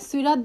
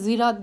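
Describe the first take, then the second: First: The word begins with an s sound. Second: The word begins with a z sound. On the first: "এই রেওয়াতটাতে সিরাত বলে না" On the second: "জিরাত বলে"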